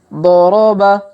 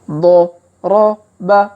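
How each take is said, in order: First: The syllables are read quickly and run together. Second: The syllables are read slowly and separately. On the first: "Kalau dipercepat" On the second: "kita baca pelan-pelan"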